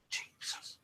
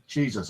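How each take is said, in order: First: "Jesus" breathed in a faint whisper; very quiet whispered "Jesus" copying the EVP; whispered imitation. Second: Said in the usual way. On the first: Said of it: "Very quietly". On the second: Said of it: "That's definitely saying".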